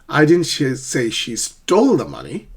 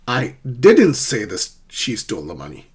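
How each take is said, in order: First: The stress falls on the word stole. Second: The stress falls on the word didn't.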